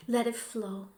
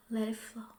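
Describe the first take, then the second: First: Said in the usual way. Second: Whispered, much softer and breathier. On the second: Shown as a demonstration. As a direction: let it fade to a whisper. Guided tapping, repeated phrase.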